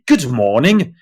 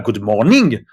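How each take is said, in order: First: The stress falls where English speakers normally put it. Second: The stress falls on a syllable English speakers avoid. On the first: The speaker calls it right. "on dit good morning" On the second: The speaker calls it wrong. "on dit pas good morning"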